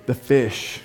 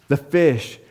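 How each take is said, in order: First: Put-on childlike awe. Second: Said in the usual way. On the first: Shown as a demonstration. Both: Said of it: "What was the main thing you wanted to hear about".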